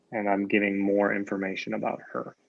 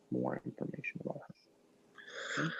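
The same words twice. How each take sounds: First: Said in the usual way. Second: Quick, much softer half-whisper; whispered echo. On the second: Shown as a demonstration. Teacher repeating the point to students, whispered. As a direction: toss it off under your breath. Teacher echoes the phrase softly.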